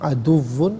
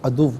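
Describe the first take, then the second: First: The word ends with a final 'n' sound. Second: The word ends without a final 'n' sound. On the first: The reading continues without stopping. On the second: The reader stops at this word.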